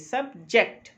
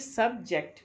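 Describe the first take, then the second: First: The stress is on the second syllable. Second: The stress is on the first syllable. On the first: The word is used as a verb. "As a verb अगर subject को use करेंगे तो ये second syllable पे" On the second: The word is used as a noun. "As a noun अगर use करेंगे first syllable सब पे आएगी"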